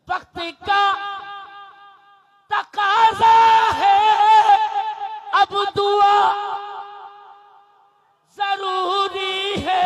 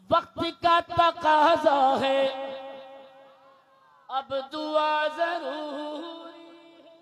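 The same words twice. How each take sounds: First: Higher, much louder, near-shouted line; shouted verse. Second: Sung, loud, slow melodic take; sung verse. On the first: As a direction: call it out to rouse the crowd. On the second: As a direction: sing it out smoothly. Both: Shown as a demonstration. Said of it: "سب بول دیں گے تب اگلا مصرع".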